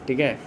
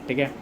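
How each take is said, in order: Both takes have the same delivery.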